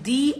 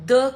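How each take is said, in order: First: The vowel is a long 'ee' sound. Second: The vowel is a short, weak 'uh' sound. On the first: The next word starts with a vowel sound. "तो आप दी pronounce करते हैं" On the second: The next word starts with a consonant sound. "जब भी आप किसी consonant के साथ टी एच ई लगाते हैं"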